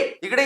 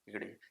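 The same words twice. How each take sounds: First: The call is said loudly and projected. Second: The call is said softly and naturally. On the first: This suits acting on stage. "Theatre में हमको थोड़ा बहुत ऐसा करना ही पड़ता है" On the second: This suits acting for the camera. "ये नहीं चलेगा, ये कैमरे में चलेगा"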